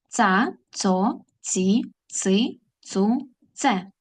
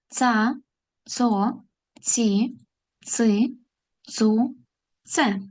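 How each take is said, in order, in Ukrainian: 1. Склади читаються дуже швидким темпом. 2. Склади читаються швидким темпом. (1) "І ще швидше" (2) "Тепер швидше"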